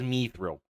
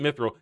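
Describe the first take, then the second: First: The first syllable sounds like 'me'. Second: The first syllable sounds like 'mith'. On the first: "As in me thrill" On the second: "This isn't Mithril"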